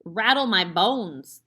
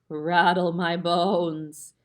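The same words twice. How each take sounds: First: It is said in a plain voice. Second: It is said in a spooky voice.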